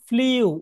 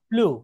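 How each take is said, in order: First: The vowel has a y-glide, like 'yoo'. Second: The vowel is a plain 'oo' without glide. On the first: The speaker calls it wrong. "সারা জীবন শিখেছি ফ্লিউ" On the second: The speaker calls it right. "উচ্চারণ হবে কি?"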